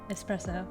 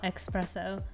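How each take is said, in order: First: The first syllable is said with an s sound. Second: The first syllable is said with an x sound. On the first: The speaker calls it right. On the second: The speaker calls it wrong.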